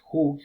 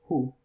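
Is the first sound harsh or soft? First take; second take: harsh; soft. First: The first sound is a harsh throaty J-like sound. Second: The first sound is a soft breathy h. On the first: The speaker calls it wrong. "no es who" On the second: The speaker calls it right. "mucho más suave que con una J"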